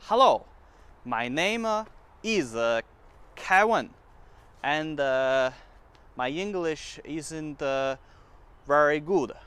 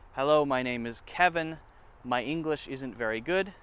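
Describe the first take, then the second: First: It is said in a Chinese English accent. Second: It is said in a plain American accent.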